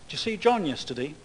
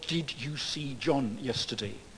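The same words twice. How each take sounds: First: 'Did you' is run together quickly and reduced. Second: 'Did you' is said carefully and in full. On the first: The speaker calls it right. "I say things like" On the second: The speaker calls it wrong. "On the C D ROM of a language course. Nowhere else"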